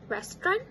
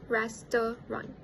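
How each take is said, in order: First: The middle vowel is dropped, leaving two syllables. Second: The middle vowel is kept, giving three syllables. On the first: "the schwa in the middle syllable was omitted" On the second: "instead of restaurant"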